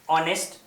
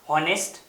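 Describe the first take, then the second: First: The word begins directly with a vowel sound. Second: The word begins with an audible h sound. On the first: The speaker calls it right. "actual pronunciation is honest. That means here the h is silent" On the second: The speaker calls it wrong. "most of the students pronounce honest"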